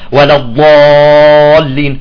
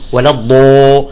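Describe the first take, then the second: First: The heavy letter is said without lip rounding. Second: The heavy letter is said with lip rounding. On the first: The speaker calls it right. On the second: The speaker calls it wrong.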